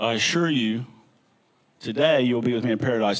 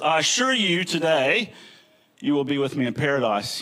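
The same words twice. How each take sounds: First: The pause comes before "today". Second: The pause comes after "today".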